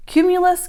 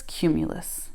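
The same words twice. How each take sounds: First: High, lilting cumulus called out; sing-song call. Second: "cumulus" dropped low and much softer; fading off. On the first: Girl naming clouds to her friends, high sing-song. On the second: Girl finishing her cloud chant, trailing off softly. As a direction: let "cumulus" trail away to almost nothing. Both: Acted.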